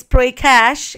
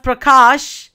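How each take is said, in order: First: Prakash said as "PRAY-cash"; mispronounced name. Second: Said in the usual way. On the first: Shown as a demonstration. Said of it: "Jinny says Prakash". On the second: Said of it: "Instead of Prakash, Jinny says".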